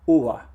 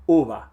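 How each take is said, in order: First: The lips come close but never touch. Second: The same.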